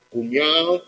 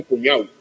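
First: "cuñao" ending in a clear a-o; two-vowel ending -ao. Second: "cuñau" closed into one final syllable; syneresis. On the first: Lecturer contrasts dialect forms, "cuñao" with open final o. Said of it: "se transforma en cuñau". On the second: Lecturer shows northern dialects, "cuñau" with final au glide. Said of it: "dan lugar a sinéresis". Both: Shown as a demonstration.

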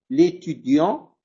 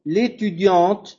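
First: L'étudiant slow, ending on the nasal vowel with no T sounded; no final T. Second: L'étudiante slow with a crisp T at the end; final T sounded. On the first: Teacher contrasting masculine for the class, slow, final T silent. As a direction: stretch l'étudiant and drop the T. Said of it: "sin pronunciar la T". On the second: Teacher contrasting feminine for the class, slow, final T sounded. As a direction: stretch l'étudiante and hit the final T. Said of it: "pronunciando la T". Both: Shown as a demonstration.

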